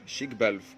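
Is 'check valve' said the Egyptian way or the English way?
Egyptian. It is said the local Egyptian way. This is what people in Egypt call it. "ترجمتها في مصر شيك بلف"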